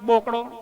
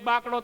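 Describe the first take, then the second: First: The first vowel is a rounded 'o' sound. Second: The first vowel is an open 'aa' sound. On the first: This is how Mehsana people say it. "તો કે" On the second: This is how we say it. "આપણે કેવી"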